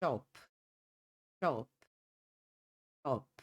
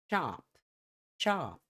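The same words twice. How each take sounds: First: British "chop" with a closed, rounded o; British pronunciation. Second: American "chop" with an open "ah" vowel; American English chop, open vowel; American pronunciation. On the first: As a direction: say chop with rounded lips, "aw"-like vowel. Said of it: "Tom mais fechado, no inglês britânico". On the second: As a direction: say chop as "chahp". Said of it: "Tom mais aberto, inglês americano". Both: Shown as a demonstration.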